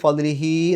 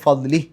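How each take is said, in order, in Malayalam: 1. അവസാന സ്വരാക്ഷരം രണ്ട് മാത്ര നീട്ടിപ്പിടിക്കുന്നു. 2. വാക്ക് അവസാന സ്വരാക്ഷരമില്ലാതെ പെട്ടെന്ന് അവസാനിക്കുന്നു. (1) "ഫദ്ലിഹി എന്ന് പറഞ്ഞ് ഒരൽപ്പം നീട്ടുക" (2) "ആ അവസാനത്തെ ഹ എന്ന് സുക്കൂൻ ഇട്ടിട്ട് നിർത്തുക"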